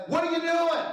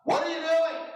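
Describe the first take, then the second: First: Put-on high, incredulous teen voice; mock a son scolding his dad, pitched high; teenage son questions his father's driving, high and incredulous; imitating teenage son. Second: High, ironic rebuke; mock gentle question. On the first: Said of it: "he says". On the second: Shown as a demonstration. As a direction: pretend to be gentle but pitch it up high. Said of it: "here's what I would just gently say to you".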